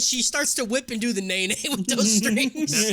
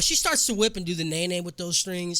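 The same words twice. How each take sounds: First: It is said while laughing. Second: It is said without laughing.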